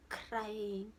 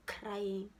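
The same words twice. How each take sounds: The two takes are said the same way.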